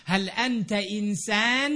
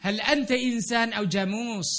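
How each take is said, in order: First: Arabic question with a rising end; asking in Arabic. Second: ฮัลอันตะอินซานเอาจามูส asked in Arabic with a falling end; longer Arabic question. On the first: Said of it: "เราถามมัน". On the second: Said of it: "ถามว่ามึงเป็นคนหรือเป็นควาย". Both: Shown as a demonstration.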